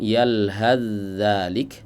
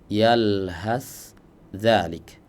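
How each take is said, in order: First: The final s merges into the following z. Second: The final s stays clear before the z. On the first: "membacanya dengan idgham" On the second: "membacanya dengan idhar"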